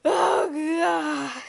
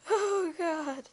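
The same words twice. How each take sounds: First: Loud, high, crying scream; hammed-up terrified scream, much higher and louder; screaming in terror. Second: High-pitched shriek, much higher; a mock scream of horror; screaming bloody murder. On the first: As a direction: shout it like a horror victim. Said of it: "Like that". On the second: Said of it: "let's see if I can get my expression right". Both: Shown as a demonstration.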